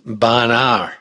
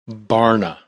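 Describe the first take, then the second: First: The name is said with a New England accent. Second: The name is said with a general American accent.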